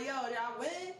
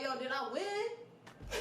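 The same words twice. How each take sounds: First: Said in the usual way. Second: Drawn-out, laughing through the words; slow laughing retold question. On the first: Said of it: "I'm like". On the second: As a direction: stretch it out while cracking up. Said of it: "I was like".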